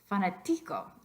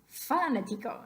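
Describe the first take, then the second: First: The stress is on the third syllable. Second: The stress is on the first syllable. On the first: "What about the second to last?" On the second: "What about the first one?"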